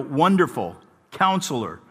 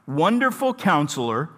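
First: There is a pause after 'Wonderful'. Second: There is no pause after 'Wonderful'. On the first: Wonderful and Counselor are two separate names. The speaker calls it wrong. "if you're accustomed to the phrasing of this text from Handel's Oratorio, Messiah, you might count it as five" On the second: Wonderful Counselor is one single name. The speaker calls it right. "properly leave that comma out so that there are actually four names"

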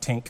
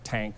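First: It is one short syllable with an i vowel. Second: It is one short syllable with an a vowel. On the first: "it's not Tink" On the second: "or Tank"

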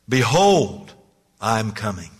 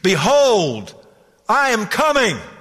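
First: It is said in a measured preacher voice. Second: It is thundered out at full volume.

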